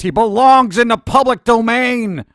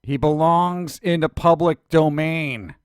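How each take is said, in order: First: It is said with Indiana Jones's conviction. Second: It is said in his own plain voice.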